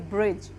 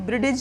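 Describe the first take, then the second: First: The d is silent in the word. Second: The d is pronounced as a separate sound. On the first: The speaker calls it right. "हम इसको क्या पढ़ेंगे, ब्रिज" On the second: The speaker calls it wrong. "हम इसको ब्रिडिज नहीं पढ़ेंगे"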